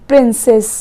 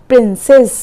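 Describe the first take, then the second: No difference in how they are said.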